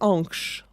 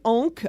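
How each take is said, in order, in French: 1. « Ankh » se prononce avec les valeurs sonores anciennes reconstituées. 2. « Ankh » se prononce avec les sons du français courant moderne. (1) "en vérité, on le prononçait Ankh" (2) "c'est très mauvais. Euh, la prononciation"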